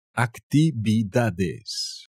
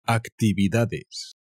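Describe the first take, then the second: First: Teacher repeats Actividades for learners, very slow; very slow Spanish model word. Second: Actividades said slowly as aktibidades; teacher models Actividades for learners, slow and clear; slow Spanish model word. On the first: Teacher repeats it very slowly. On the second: Teacher slowly models the Spanish word. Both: Shown as a demonstration.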